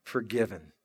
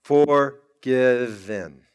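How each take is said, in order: First: Much softer, an almost breathed Forgiven; a quiet, reverent echo of the word. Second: A very slow, weighty Forgiven; drawn-out revelation. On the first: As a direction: repeat it to yourself under the breath. Echoing the word after reflection. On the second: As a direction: stretch the word out slowly and low. Answer to the tombstone question. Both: Acted.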